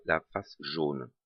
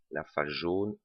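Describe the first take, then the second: First: "la face jaune" drawn out slowly, each word weighed; slow down and lean on "la face jaune"; slow emphasis. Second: Said in the usual way. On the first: Shown as a demonstration. Teaching viewers which face turns the other way, slow and stressed. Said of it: "sauf la pa-, la face jaune".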